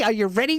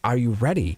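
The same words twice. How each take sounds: First: It is said in a playful, teasing tone. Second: It is said in a gentle, sincere tone. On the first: It is a casual joke between friends. The speaker calls it wrong. "this is not a facetious" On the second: It is a serious, caring question. The speaker calls it right. "I read this as though you're my child. I kiss you on the forehead and I say"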